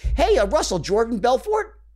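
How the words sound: The name is said with a rising question tune.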